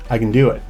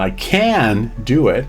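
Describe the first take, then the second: First: The vowel in 'can' is reduced to a schwa. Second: The vowel in 'can' is a full 'eh' sound. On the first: The speaker calls it right. "put it in context" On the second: The speaker calls it wrong. "It doesn't sound"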